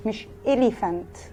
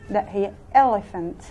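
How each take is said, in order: First: Elephant said slowly as elifant, with an i; slowly mock the wrong elephant with a long i; teacher showing the wrong way; wrong pronunciation. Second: Elephant said slowly with a short open e at the start; teacher showing the right way; correct pronunciation. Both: Shown as a demonstration.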